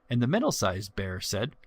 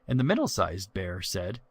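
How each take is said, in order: No difference in how they are said.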